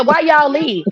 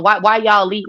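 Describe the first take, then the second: First: Higher-pitched retold question; corrected quote. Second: Said in the usual way. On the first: Asking Miss Mimi why they left, higher-pitched. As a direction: lift the pitch on the whole question "Why y'all leave?". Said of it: "I said, I said". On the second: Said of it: "No, I didn't say that".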